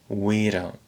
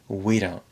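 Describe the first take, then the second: First: The D is tapped, smooth and reduced. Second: The same.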